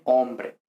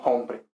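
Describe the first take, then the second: First: Said in the usual way. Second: "hombre" with an aspirated H; audible H at the start of "hombre"; sounded H. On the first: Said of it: "en español no pronunciamos la H". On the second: Shown as a demonstration. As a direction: breathe an H onto "hombre". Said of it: "no hombre".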